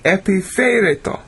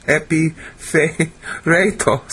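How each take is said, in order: First: Epiphereto said cleanly, ep-i-fe-RAY-to, higher; correct pronunciation. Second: Epiphereto drawn out syllable by syllable, falling; slow careful pronunciation. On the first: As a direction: nail Epiphereto at last, confident. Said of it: "There we go. Finally got it". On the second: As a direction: sound out Epiphereto very slowly. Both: Shown as a demonstration.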